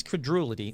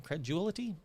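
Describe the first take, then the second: First: "credulity" said as cre-DOO-lity, settled; corrected word. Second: "credulity" stumbled as cre-ZHOO-lity, questioning; misread word. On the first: Host fixes the misread word, "credulity" firmly with a d. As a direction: say "credulity" with a clear d. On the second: Host trips over a misspelling, "credulity" said doubtfully as cre-zhoo-lity. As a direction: say "credulity" softly with a zh for the d, unsure. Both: Real, not acted. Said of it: "They spelled that wrong".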